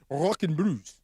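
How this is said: The name is said in an imitated accent.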